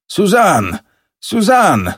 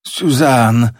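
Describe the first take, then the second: First: High, urgent call of the name. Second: Drawn-out, understated moan of the name; choked moan.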